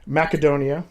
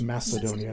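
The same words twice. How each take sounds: First: The C is said as a hard K sound. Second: The C is said as a soft S sound. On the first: This is how people there say it. The speaker calls it right. "I say it with a hard K because that's how they say it" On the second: This is how people here say it. The speaker calls it wrong. "Everybody here says Macedonia. It drives me crazy"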